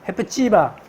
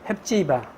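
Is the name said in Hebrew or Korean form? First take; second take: Hebrew; Korean. First: It is said in Hebrew form, hef-tsi-ba. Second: It is said in the Korean rendering, hep-si-ba. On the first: "쉬운 히브리어로 말한다면 헤프치바라고 하는 말입니다" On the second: "이 말을 우리말 발음으로 바꾼 말이 헵시바라고 우리말은 번역했죠"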